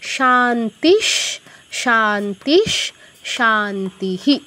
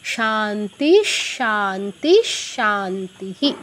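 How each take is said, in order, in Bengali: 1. প্রথম দুটি শব্দ 'sh' ধ্বনিতে শেষ হয়। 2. প্রথম দুটি শব্দ 'sh' ধ্বনিতে শেষ হয়।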